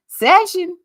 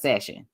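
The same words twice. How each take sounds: First: The word is said loudly with high energy. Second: The word is said flatly with low energy. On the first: The speaker calls it right. "I told y'all y'all gotta say it like that too" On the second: The speaker calls it wrong. "Don't just keep all that energy over there"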